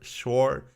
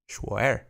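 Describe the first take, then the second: First: The name is said as an English-sounding word. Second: The name is said with a Chinese-style pronunciation.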